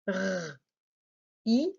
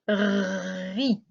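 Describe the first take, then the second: First: The two sounds are said slowly and separately. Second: The two sounds are said quickly, running together.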